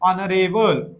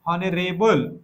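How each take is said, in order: No difference in how they are said.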